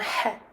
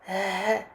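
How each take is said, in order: First: The h is raspy, with throat friction. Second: The h is a smooth breath with no friction. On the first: The speaker calls it wrong. "plutôt qu'un ha" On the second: The speaker calls it right. "Essaie plutôt d'expirer, de sortir un souffle"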